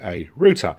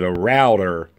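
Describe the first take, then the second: First: Router is said with an English accent. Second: Router is said with an American accent.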